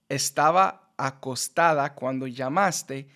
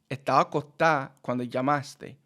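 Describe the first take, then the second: First: Each word is pronounced separately and fully. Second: Words merge together with sounds cut short. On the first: "instead of" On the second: "it would sound like"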